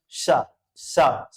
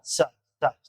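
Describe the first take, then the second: First: "सा" drawn out slowly as sha, tongue curved back; palatal sa. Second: "सा" as a crisp s with the tongue on the teeth; dental sa. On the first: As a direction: stretch each "सा" into a long hissing sha. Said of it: "तालव्य सा इसका उच्चारण होगा". ("सा" को तालव्य श की तरह धीरे-धीरे खींचकर) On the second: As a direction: hiss "सा" short against the teeth, a sharp s. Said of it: "दंती सा". ("सा" को दाँतों पर जीभ लगाकर साफ़ स की तरह) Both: Shown as a demonstration.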